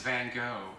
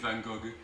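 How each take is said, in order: First: It is said the American way. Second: It is said the French way.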